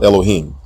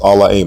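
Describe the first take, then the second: First: The word is said with a long o vowel. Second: The word is said with no long o vowel. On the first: The speaker calls it wrong. "not Elohim. There is no long O vowel in this word" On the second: The speaker calls it right. "This particular word from Genesis one and one is pronounced Al-La'im"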